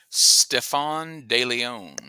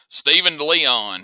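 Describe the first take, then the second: First: The name is said in a French style. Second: The name is said in an Alabama accent.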